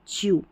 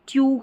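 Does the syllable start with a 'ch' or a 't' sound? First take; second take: ch; t. First: The syllable begins with a ch sound. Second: The syllable begins with a plain t sound. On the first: The speaker calls it right. "ऐसे च्यू" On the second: The speaker calls it wrong. "इसको आप ट्यू करके नहीं पढ़ेंगे"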